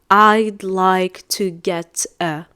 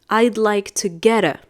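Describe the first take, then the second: First: The words get and a are said separately. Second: The words get and a run together smoothly. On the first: The speaker calls it wrong. "I'm not going to say ... It's too much. It's too thick" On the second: The speaker calls it right. "we usually connect the two words"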